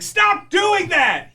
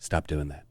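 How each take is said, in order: First: It is said loudly, like yelling. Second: It is said quietly in a low, hushed voice. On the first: The parent is angry and yelling. The speaker calls it wrong. "instead of saying" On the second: The parent is calm but menacing. The speaker calls it right. "talking almost in hushed tones"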